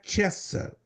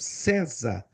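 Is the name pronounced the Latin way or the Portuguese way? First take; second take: Latin; Portuguese. First: It is pronounced the Latin way. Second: It is pronounced the ordinary Portuguese way. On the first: This is how the title is actually pronounced. "mas se pronuncia" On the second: This is how the name is written. "Se escreve igualzinho"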